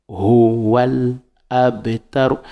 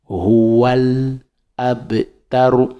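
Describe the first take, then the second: First: The words are linked together into one flow. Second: The same.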